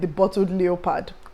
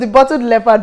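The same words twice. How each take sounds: First: Leopard is said the Nigerian school way. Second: Leopard is said the standard way. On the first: This is how many grew up saying it. The speaker calls it wrong. "A lot of people grew up calling it The Bottled Leopard" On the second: This is how the word is properly pronounced. The speaker calls it right. "leopard is pronounced as leopard"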